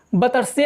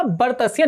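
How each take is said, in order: First: बतस्य with no r, ब-तस्य; teacher naming the mistaken बतस्य; wrong pronunciation. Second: बर्तस्य with a clear r after ब, बर्-तस्य; teacher giving the right form of बर्तस्य; correct pronunciation. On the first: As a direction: drop the r in बतस्य, saying ब-तस्य. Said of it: "ना कि बतस्य". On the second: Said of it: "क्या उच्चारण जो उसका सही होगा". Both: Shown as a demonstration.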